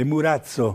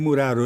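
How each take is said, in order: First: The consonant before the final vowel is ts. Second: The consonant before the final vowel is an r. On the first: The speaker calls it right. "è Murazzo" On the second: The speaker calls it wrong. "non è Muraro"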